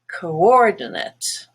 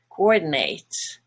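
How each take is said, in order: First: The last syllable has a reduced schwa vowel. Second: The last syllable has a full 'nate' vowel. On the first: It is used as a noun. "as a noun" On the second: It is used as a verb. "the last part is no longer a schwa, nut, but nate"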